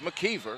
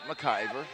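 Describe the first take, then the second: First: The middle syllable sounds like 'key'. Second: The middle syllable sounds like 'eye'. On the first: The speaker calls it right. "It's McKeever" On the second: The speaker calls it wrong. "not McIver"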